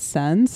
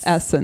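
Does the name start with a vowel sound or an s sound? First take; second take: s sound; vowel sound. First: The name begins directly with an s sound. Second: The name begins with a vowel before the s. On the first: The speaker calls it wrong. "Is that how you pronounce it?" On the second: The speaker calls it right. "It's like it's the Essence"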